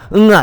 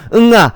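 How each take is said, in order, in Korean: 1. 단어 전체를 크고 세게 발음해요. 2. 단어 전체를 크고 세게 발음해요.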